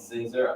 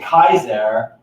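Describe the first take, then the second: First: The word begins with an S sound. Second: The word begins with a K sound.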